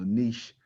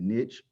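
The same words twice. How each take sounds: First: It is said the way British friends say it. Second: It is said in the speaker's own non-British way.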